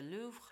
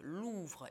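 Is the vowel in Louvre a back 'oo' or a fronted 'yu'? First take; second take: yu; oo. First: The vowel is a fronted, lax 'yu' sound. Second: The vowel is a tense, rounded back 'oo'. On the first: The speaker calls it wrong. "вот недоделанное «у»" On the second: The speaker calls it right. "нужно рот вести на «у»"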